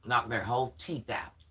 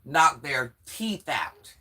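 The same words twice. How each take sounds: First: Said in the usual way. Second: Each word of Knock their teeth out spaced out slowly and louder; slow emphatic repeat. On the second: Shown as a demonstration. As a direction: hammer every word home, slowly.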